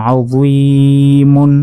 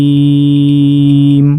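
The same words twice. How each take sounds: First: "আযীমুন" slowly chanted with long ee and sounded "mun"; full ending. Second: "আযীম" with ee held very long, closing on m; pausal stretch. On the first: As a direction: draw out "আযীমুন", finishing on a clear mun. Full form before pausal form. ("আযীমুন" টেনে শেষে মুন স্পষ্ট) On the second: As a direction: stop on "আযীম" after a long level ee. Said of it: "ওয়াকফ করলে". ("আযীম" তিন আলিফ টেনে থামা) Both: Shown as a demonstration.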